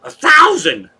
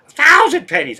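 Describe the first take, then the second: First: Sudden high loud squawk of a number; Sparky's voice. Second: High loud cartoon yelp; Sparky's voice. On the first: Retold or imitated. Streamer doing a character voice for chat, high and loud. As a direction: shout it way up high like a cartoon character. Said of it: "in Sparky's voice". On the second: Streamer repeating his usual character bit, high and loud. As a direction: fling it up high and loud, gleeful. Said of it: "but I say".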